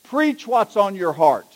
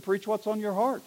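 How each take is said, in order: First: Slow, weighty piece of advice; mildly pompous acted-out order; firm instruction. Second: Soft, understated punchline; quiet, offhand echo of advice; deadpan comeback. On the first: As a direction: hand it down slowly, word by word. Bishop's order, later echoed back. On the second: Acted. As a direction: drop the voice and hand the line back. Intern throws bishop's words back.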